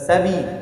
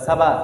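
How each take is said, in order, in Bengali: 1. b-এর পরের ঝোঁকটি i-এর মতো শোনায়। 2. b-এর পরের ঝোঁকটি a-এর মতো শোনায়। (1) "এটা তিন তিনটাই কি ভুল।" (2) "এটা তিন তিনটাই কি ভুল।"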